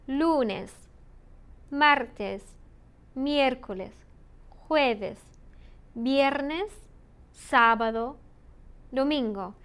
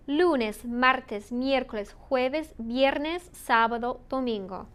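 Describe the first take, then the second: First: The days are said at normal speed. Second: The days are said more quickly.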